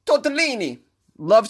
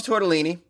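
First: High-pitched Italian flourish; proudly rolled-out comic Italian; sexy Italian accent. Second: Said in the usual way. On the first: Shown as a demonstration. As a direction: show off the word in a hammy Italian accent. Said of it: "with this sexy-ass Italian accent".

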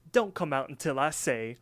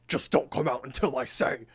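First: Said in the usual way. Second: Mock insistent cartoon voice; emphatic put-on insistence; insistent order. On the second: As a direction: repeat the order firmly, in character. Pie repeats order after being questioned.

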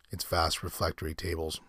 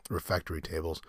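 First: Reflectory, slipped r in the middle; misread word. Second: Refectory said carefully, no l after the e; self-correction. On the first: Real, not acted. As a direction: says reflectory with an extra l sound. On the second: Shown as a demonstration.

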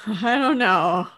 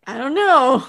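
First: Slow, laughing I don't know; a bemused, laughing shrug of a line. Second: Said in the usual way. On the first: Real, not acted. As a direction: chuckle through the words.

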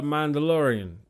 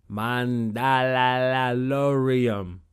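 First: Said in the usual way. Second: "Mandalorian" stretched very slowly, syllables rolled out; slow, lingering "Mandalorian"; drawn out. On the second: Shown as a demonstration. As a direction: savor every syllable of "Mandalorian". Drawn-out repeat of the word.

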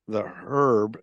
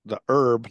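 First: "herb" with an audible H; sounded H in herb. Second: "herb" as "erb", with no H; silent H in herb. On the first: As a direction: breathe the H into "herb". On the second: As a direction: drop the H on "herb". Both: Real, not acted. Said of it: "Now I can't say herb right".

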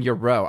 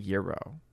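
First: Euro said "yer-OH", stress on the end; caller's pronunciation. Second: Euro said slowly as "YEER-oh"; own pronunciation. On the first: Host mimicking the caller's version, Euro as "yer-OH". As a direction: push the weight onto the last syllable of Euro. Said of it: "You're saying Euro, I'm saying Euro". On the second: Host contrasting with caller, slow Euro as "YEER-oh". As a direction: draw out the first syllable of Euro. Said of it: "I'm saying Euro". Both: Shown as a demonstration.

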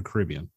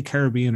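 First: Caribbean said ca-RIB-ee-an; Caribbean pronunciation variant. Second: Caribbean said ca-rib-BE-an; Caribbean pronunciation variant. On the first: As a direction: stress the second syllable of Caribbean, RIB. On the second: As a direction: stress the third syllable of Caribbean, BE. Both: Shown as a demonstration. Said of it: "do you say Caribbean or Caribbean".

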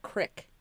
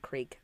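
First: "crick" with a short vowel, rhyming with brick; regional pronunciation. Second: Said in the usual way. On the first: Shown as a demonstration. Explaining the regional accent to friends, "crick" with a short i. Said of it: "It's a regional accent". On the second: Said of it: "it's like crick, you know, and creek".

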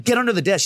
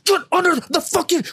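First: Insistent but contained command; retold firm order. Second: Very high, panicky mock yell; hammed-up desperate command; retold frantic order. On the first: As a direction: urge her along in a mildly raised pitch. Retold order, first milder try. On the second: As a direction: order her as if about to be caught. Retold order escalates, scaring her.

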